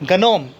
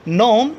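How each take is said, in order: First: The word starts with a hard g sound. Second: The word starts with an n sound. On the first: The speaker calls it wrong. "गनोम नहीं होता है, मैंने गनोम जानबूझ के बोला है" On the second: The speaker calls it right. "जी यहाँ पर साइलेंट होगा"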